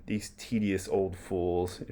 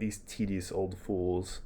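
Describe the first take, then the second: First: Put-on slow, disdainful muttered aside about the old man; scornful aside. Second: Slow, quieter contemptuous aside; scornful aside. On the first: Hamlet dismissing Polonius as he leaves, slow scornful aside. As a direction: sneer it out under your breath, slowly. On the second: Acted. Hamlet sneering at the departing old courtier, soft slow scorn. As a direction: let it drip with slow disdain under your breath. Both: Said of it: "referencing Polonius there".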